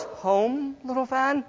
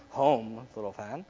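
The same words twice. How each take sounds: First: High, soft, rising question; practising the line. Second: Low, very soft take; practising the line. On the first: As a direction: try it small and high. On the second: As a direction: try it deep and hushed. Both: Acted. Trying out ways to say it.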